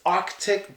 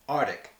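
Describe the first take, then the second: First: The c sound after the r is pronounced. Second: The c sound after the r is dropped. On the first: The speaker calls it right. "you need that C sound" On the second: The speaker calls it wrong. "we just don't use it"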